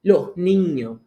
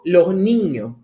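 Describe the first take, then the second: First: The s sounds are swallowed, aspirated. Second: The same.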